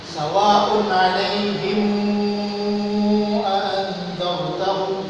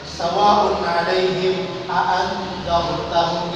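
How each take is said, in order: First: The vowel near the hamza is drawn out long. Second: The vowel near the hamza is kept short. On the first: This is an alternative traditional reading of the passage. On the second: This is the standard reading of the passage.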